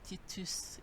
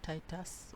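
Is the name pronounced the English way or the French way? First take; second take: French; English. First: The name is pronounced the French way. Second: The name is pronounced the English way.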